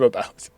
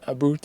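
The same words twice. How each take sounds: First: It is said with a standard English vowel. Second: It is said with a Scottish 'aboot' vowel. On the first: "instead of about" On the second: "About instead"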